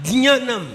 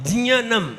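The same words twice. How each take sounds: Both takes have the same delivery.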